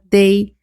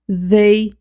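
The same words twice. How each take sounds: First: It begins with a plain d sound. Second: It begins with a soft th sound. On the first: "com o som de D mesmo" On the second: "eu estou falando com o som de T H"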